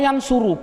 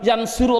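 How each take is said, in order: First: The vowel before the last syllable is u. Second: The vowel before the last syllable is i. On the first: The speaker calls it right. "Nasoro yansuru" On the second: The speaker calls it wrong. "Jawabnya tidak boleh"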